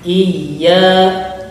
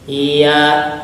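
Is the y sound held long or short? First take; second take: held; short. First: The y sound is doubled and held. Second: The y sound is short and not held. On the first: The speaker calls it right. "harus dilangsungkan sama ditahan dulu" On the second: The speaker calls it wrong. "Berarti kurang tasydid"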